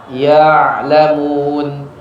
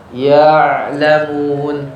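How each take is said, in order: The two takes are said the same way.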